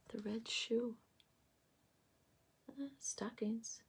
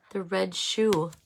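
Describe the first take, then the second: First: Softly whispered aside. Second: Said in the usual way. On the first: Real, not acted. Tarot reader repeating card details to herself, whispered. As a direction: breathe the words as if to herself.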